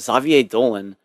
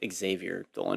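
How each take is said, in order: First: The name is said with a French pronunciation. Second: The name is said with an American pronunciation.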